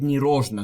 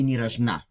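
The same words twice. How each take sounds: First: The stress is on the first syllable. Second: The stress is on the second syllable. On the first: The speaker calls it wrong. "I stressed in this word the first syllable" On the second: The speaker calls it right. "but it should be ни рожна"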